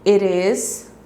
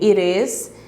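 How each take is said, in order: The two takes are said the same way.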